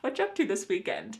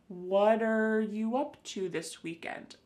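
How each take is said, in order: First: The opening words are heavily reduced and merged. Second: The opening words are only slightly contracted. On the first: "We can reduce this a little bit further" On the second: "be verbs like are, is will be contracted with a question word"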